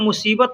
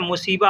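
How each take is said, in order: First: The word ends with a final t sound. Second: The word ends without the final t sound. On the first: "मुसीबत ना बोल के" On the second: "लोग मुसीबा बोलते हैं"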